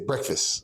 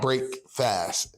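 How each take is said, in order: First: It is said as one blended word. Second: It is said as two separate words. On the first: This is how people normally say it. "we don't say the word like it's pronounced, like it's like it's meant to be. We say breakfast" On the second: The word means breaking a fast. "but the word is"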